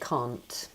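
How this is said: It is said in a British accent. "But we don't. We say can't"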